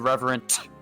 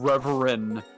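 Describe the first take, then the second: First: The final T sound is strongly exaggerated. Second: The final T sound is left off. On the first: "we would severely overpronounce the T at the end" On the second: "we weren't pronouncing the T at the end of reverent"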